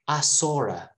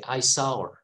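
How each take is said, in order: First: An R sound links saw to a reduced er. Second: Saw and her are said without an added R. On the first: "British people add an R sound to connect these two words. And they say" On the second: "I prefer the American accent, ... this sentence I would say"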